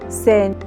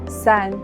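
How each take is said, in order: First: The e is closed, with the mouth narrower. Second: The e is open, with the mouth wider. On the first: The speaker calls it wrong. "Bu kelimeleri şu şekilde söyleseydim" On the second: The speaker calls it right. "Bu seste ağız biraz daha açılır"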